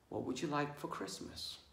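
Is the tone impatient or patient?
patient. It is said in a calm, patient tone.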